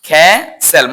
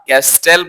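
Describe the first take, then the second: First: The t sound is left out entirely. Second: The t sound is pronounced in the middle. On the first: The speaker calls it right. "এর উচ্চারণ হচ্ছে খ্যাসেল" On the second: The speaker calls it wrong. "Not ক্যাস্টেল"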